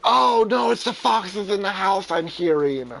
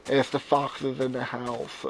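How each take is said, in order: First: Higher, louder, excited protest; excited correction. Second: Slow deadpan repeat. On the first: Host correcting his cohost about the noises, higher and louder. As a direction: cut in, louder and higher, insisting. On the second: Repeating the fox joke deadpan. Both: Real, not acted.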